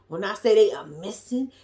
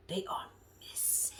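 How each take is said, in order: First: Said in the usual way. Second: Breathy whispered emphasis. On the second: Shown as a demonstration. Recapping a reality show, whispering for drama. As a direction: drop to a secret whisper.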